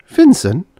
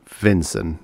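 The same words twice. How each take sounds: First: High, loud startled question; astonished. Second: Understated bitter echo of the name. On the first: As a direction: exclaim it in high-pitched disbelief. Startled on hearing his name. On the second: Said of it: "he said bitterly". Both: A narrator's reading.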